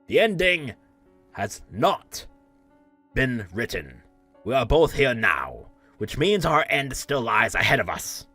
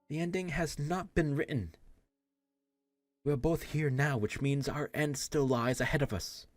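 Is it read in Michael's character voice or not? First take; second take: Michael's voice; not Michael. First: It is read in Michael's voice, with more oomph. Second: It is read without Michael's character voice.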